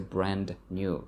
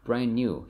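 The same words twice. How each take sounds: First: The d at the end of brand is pronounced. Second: The d at the end of brand is dropped. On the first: The speaker calls it wrong. "you don't say brand new" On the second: The speaker calls it right. "you say brand new"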